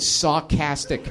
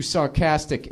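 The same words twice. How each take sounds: First: "sarcastic" said as saw-castic, first r dropped; misspelt pronunciation. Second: Said in the usual way. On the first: Retold or imitated. Quoting the boss's misspelling in a review, "sarcastic" as saw-castic. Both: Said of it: "he spelt it sarcastic".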